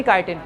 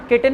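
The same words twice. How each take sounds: First: काइटिन said as kai-tin, long ai; right pronunciation. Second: किटिन with a short ki sound; the wrong way, किटिन as ki-tin; wrong pronunciation. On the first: (काइटिन को "काइ" के साथ बोलो) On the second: (किटिन, छोटे "कि" के साथ) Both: Shown as a demonstration. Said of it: "किटिन नहीं बोलना".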